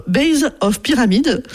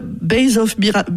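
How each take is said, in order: First: "base of pyramid" in a self-mocking English accent, slowed; careful, slow English on "base of pyramid"; jokey English accent on "base of pyramid", a bit higher. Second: Said in the usual way. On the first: Shown as a demonstration. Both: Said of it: "avec mon super accent".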